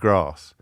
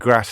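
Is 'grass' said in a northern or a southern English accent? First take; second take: southern; northern. First: It is said in a southern English accent. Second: It is said in a northern English accent. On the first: This is the expected way at the school. "instead of grass" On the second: This is how the lad from the northwest said it. "a lad who used to get so much jip at school for saying grass"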